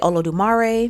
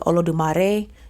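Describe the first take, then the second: First: It is said with a Southern US country accent. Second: It is said with a Spanish-style accent.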